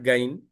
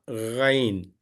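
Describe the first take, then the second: First: It starts with a plain hard g sound. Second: It starts with a gargled sound from the throat. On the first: The speaker calls it wrong. "Not Gain" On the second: The speaker calls it right. "This is a Gha, Ghain"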